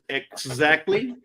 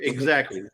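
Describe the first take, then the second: First: The word begins with a crisp 'eks' sound. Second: The word begins with an 'egg' sound. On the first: The speaker calls it wrong. "nobody says exactly" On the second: The speaker calls it right. "They say exactly. E G G"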